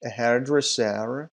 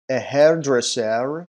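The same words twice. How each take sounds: First: Said in the usual way. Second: Hairdresser said slow and loud, each syllable clear; teacher's careful model of hairdresser; model pronunciation. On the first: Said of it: "teacher repeats the word". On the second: Shown as a demonstration. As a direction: announce "A hairdresser" slowly and loudly for the class to copy. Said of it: "teacher models new word".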